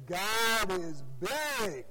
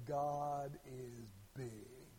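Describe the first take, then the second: First: Louder, slow, swooping proclamation; imitated preacher, more excited. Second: Slow, low, drawn-out preacher proclamation; preacher's opening line. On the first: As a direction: mimic a preacher getting worked up, stretching the words. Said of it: "he'd get a little bit more excited". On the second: Retold or imitated. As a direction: imitate a preacher starting low, stretching each word. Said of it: "he starts off".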